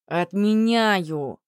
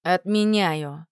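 First: «Отменяю» repeated slower and louder, as if to a deaf bracelet. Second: Slow, curt decree; chopped-off command. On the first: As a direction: stretch «Отменяю» out, falling, louder. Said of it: "повторил он, словно браслет мог сделаться глухим". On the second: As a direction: cut it off like an axe. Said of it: "словно топором отрубил". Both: A narrator's reading.

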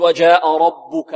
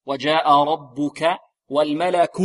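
First: ربك with the baa wrongly thick and dark; wrong heavy baa. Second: ربك with heavy raa, then light thin baa; correct light baa. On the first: Teacher warning students of a mistake, heavy baa in ربك. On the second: Teacher correcting the mistake for students, light baa in ربك. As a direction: slowly recite ربك, keeping only the r heavy. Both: Shown as a demonstration. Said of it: "نفخم الراء ونحذر من تفخيم الباء الأولى".

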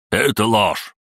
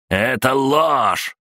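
First: Raised-pitch protest; firm joint denial. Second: High, drawn-out outraged cry; indignant shout. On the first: Two gang bosses deny the accusation at once, firmly. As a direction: declare it firmly, a little higher. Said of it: "заявили они одновременно". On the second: Gang boss denies prisoner's accusation, shouting indignantly. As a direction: shout the denial high, stretching it. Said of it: "закричал Сандер". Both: A narrator's reading.

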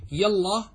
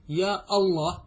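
First: "يا الله" with الله joined straight onto يا, no glottal stop; connecting hamza. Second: "يا الله" with a clear glottal stop before الله; cutting hamza. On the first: Teacher showing students the joining hamza, run together. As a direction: glide "يا الله" together as one unit. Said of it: "همزة وصل". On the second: Teacher showing students the cutting hamza, glottal stop. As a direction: break between يا and a stopped أ in "الله". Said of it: "همزة قطع". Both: Shown as a demonstration.

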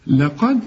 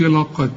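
First: لقد with a thin, light lam and dal. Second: لقد with the lam and dal wrongly thickened like the qaf; mock the mistake: a heavy, emphatic لقد. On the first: Tajweed teacher shows students the correct light لقد. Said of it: "رق اللام". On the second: Teacher imitates a student's wrong heavy لقد. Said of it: "ما تقولش لقد". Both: Shown as a demonstration.

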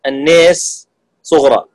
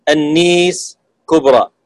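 First: النيس with the vowel tilted only slightly toward e, slow; taqlil, minor tilt. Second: النيس with the a fully tilted to i, slow; imala kubra. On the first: (نطق النيس بإمالة صغرى خفيفة) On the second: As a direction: tilt النيس all the way to i. (نطق النيس بإمالة كبرى كاملة) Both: Shown as a demonstration.

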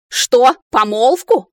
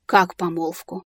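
First: Громкий возмущённый переспрос; взреви от возмущения; гневный рёв. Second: Негромкий изумлённый переспрос; переспроси в лёгком изумлении; изумлённо. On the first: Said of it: "взревел блондинистый маг". (возмущённый рёв) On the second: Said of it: "изумлённо переспросила Ария". (изумлённо, с вопросом) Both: A narrator's reading.

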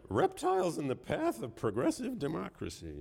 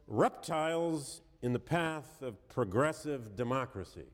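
First: Higher, incredulous retelling, still amused; mock incredulous quote. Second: Slow, deliberate reading of the quote; slow quoted reading. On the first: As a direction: repeat it like you can't believe it was printed. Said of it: "I'm sorry". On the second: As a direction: let each word of "reptiles" land slowly. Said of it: "I quote". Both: Shown as a demonstration.

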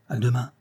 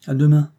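First: Said in the usual way. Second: Tossed-off "À demain", higher and louder; offhand. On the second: A narrator's reading. Rose to Juste, answering him carelessly, offhand. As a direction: throw back "À demain" carelessly. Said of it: "d'un ton négligent".

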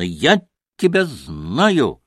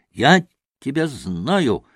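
First: Very slow, irritated, stress on «тебя»; irritated exclamation. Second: Slow, irritated, stress on «Я»; irritated exclamation. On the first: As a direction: drag it out, leaning on «тебя». (раздражённо, с ударением на «тебя») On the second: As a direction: jab at the boy with «Я» stressed. (раздражённо, с ударением на «Я») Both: A narrator's reading. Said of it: "восклицал он раздражённо".

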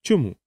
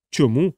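First: Mildly intrigued question, falling at the end; a short, intrigued "why". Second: Lightly patronizing, lilting up; indulgent echo. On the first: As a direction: ask with a touch of curiosity. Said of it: "заінтриговано запитала вона". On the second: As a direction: question echoed back with a rising end. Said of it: "поблажливо всміхаючись". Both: A narrator's reading.

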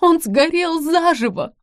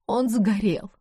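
First: Высокий громкий вопль, замедленно; в ужасе выкрикни, срываясь вверх; истерика. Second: Бездумно повторяя. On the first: Истерика, реплика продолжается. (жена в истерике о пожаре: громкий вопль) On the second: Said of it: "бездумно повторяла". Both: Acted.

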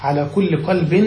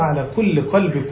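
First: قلب ending in a clear "-in", qalbin; tanween reading. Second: قلب ending in a short "-i" with no n; no tanween on قلب, just qalbi; construct reading. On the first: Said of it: "في من أضاف". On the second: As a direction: read قلب joined on as qalbi. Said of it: "نعم، على الإضافة". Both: Shown as a demonstration.

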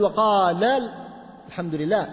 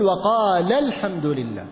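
First: وقال run into ال of الحمد, no stress on the ل; the wrong way. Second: Slow, with the ل of وقال pressed and kept apart from الحمد; stress on the lam. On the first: Teacher shows what not to say, the linked reading. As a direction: link وقال into الحمد with no nabr. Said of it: "يعني ما نقول". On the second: Teacher shows the right nabr on the lam, slow and stressed. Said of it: "أن ننبر على اللام". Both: Shown as a demonstration.

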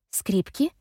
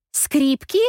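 First: Stunned echo. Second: Higher, louder alarmed question; the penny drops, say it in alarm; dawning shock. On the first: Effie frozen, repeating the word, not grasping it yet. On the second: Effie realises the violins are on the roof, alarmed and louder. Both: A narrator's reading. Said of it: "Мгновение я не могу пошевелиться".

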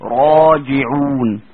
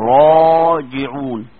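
First: "راجعون" drawn out very slowly with a heavy, full ra; slow, loud tajweed demo. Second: "راجعون" recited again, slow and chanted; slow Quranic intonation; recited heavy ra. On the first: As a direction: stretch "راجعون", ra thick. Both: Shown as a demonstration. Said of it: "أقول إيه؟".

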